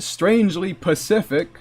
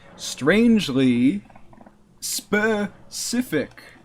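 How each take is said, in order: First: The second word begins with a p sound. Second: The second word begins with an s sound. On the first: The speaker calls it wrong. "Not strangely Pacific" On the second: The speaker calls it right.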